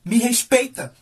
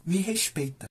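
First: Lightly voiced firm reproach; stern mother. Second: Soft, understated retort; quiet demand. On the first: Mother facing her crying son, stern demand for respect. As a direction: imitate a mother putting her child in place. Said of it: "Minha mãe olhou no fundo dos meus olhos". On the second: Retold or imitated. Boy bragging to mom about swimming, quiet understated demand. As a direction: drop the volume for a muted aside.

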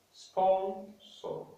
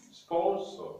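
First: "Sponsor" drawn out in two high, separate syllables; syllabified. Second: Said in the usual way. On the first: Shown as a demonstration. Teacher guiding learners to syllabify, "Sponsor" split in two. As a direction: say "Sponsor" as spon, pause, sor. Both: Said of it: "we are going to syllabify words".

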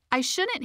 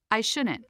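First: Much higher, rising and fretful; Hilda's voice. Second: Said in the usual way. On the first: Shown as a demonstration. Narrator voicing Hilda, fretting over what others think. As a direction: pitch it up like a worried inner voice. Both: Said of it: "Hilda obsesses about the judgments".

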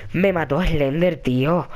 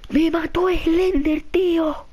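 First: Slow, low, deflated; resigned. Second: High, slow wail of defeat; distraught wail. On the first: Player accepting that Slender killed him, resigned. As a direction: let it sink down slowly in defeat. Repeats the loss, now resigned. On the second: Player telling Alba Slender killed him, distraught wail. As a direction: draw it out high, utterly gutted. Wailing after game death. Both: Real, not acted.

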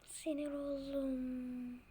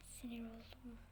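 First: Said in the usual way. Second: "sinir oldum" whispered under the breath. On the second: Real, not acted. Player muttering to himself, whispering he is annoyed.

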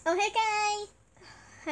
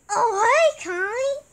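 First: A slow, drawn-out "Oh, hey, Kai" imitating Holly; slow Holly impression. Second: A loud, bright greeting imitating Holly; Holly voice impression. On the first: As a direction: stretch each word of "Oh, hey, Kai" out lazily. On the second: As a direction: greet Kai in a louder, higher put-on voice. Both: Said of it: "Holly voice impression time".

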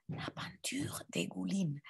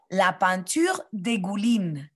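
First: Breathy classroom whisper for repeating. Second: Said in the usual way. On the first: Shown as a demonstration. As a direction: whisper the whole phrase, no voice. (chuchoté) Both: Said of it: "Répétez".

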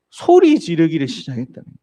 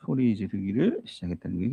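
First: 소리 지르기를 pushed out louder, 소리 hit hardest; louder emphatic telling. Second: 소리 지르기를 repeated softer, lifting on 지르기를; softer echo with rising stress. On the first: Preacher to congregation, stressing that he cried out loud. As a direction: punch 소리 in 소리 지르기를 시작했다는 거예요. Preacher repeats key phrase. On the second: Preacher to congregation, quietly echoing that he cried out. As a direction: let 지르기를 rise gently in a quieter echo. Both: Shown as a demonstration.

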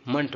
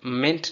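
First: मंट with a neutral "uh"; schwa ending. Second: मिंट with a clear front vowel; wrong vowel. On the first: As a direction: reduce the vowel, say मंट. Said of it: "मंट बोलिए". (मंट में श्वा) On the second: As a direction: sound the second syllable as मिंट, not schwa. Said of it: "मिंट नहीं". (मिंट, स्वर साफ़) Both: Shown as a demonstration.

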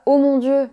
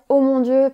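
First: A louder, exasperated oh my God; irritated exclamation, louder; annoyed. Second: A loud, startled oh my God; surprised exclamation, louder. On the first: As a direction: vent your irritation at someone. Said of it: "parce qu'on est énervé". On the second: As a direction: gasp it out as if caught off guard. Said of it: "parce qu'on est surpris". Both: Shown as a demonstration.

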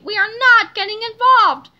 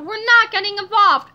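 First: Louder, spelled-out "we are not"; emphatic repeat. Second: Firm, loud "not getting involved"; firm refusal. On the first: Harold repeating his refusal, emphatically stressing "not". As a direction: hammer "not" with high, loud emphasis. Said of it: "I repeat". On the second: Harold refusing to join in, firmly stressing "not". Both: A narrator's reading.

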